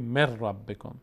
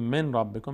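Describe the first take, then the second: First: The n merges into a doubled r sound. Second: The n is pronounced clearly before the r. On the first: The speaker calls it right. "میگیم مر ربکم، چون اینجور تلفظ ساده تره" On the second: The speaker calls it wrong. "به جای که بگیم من ربکم"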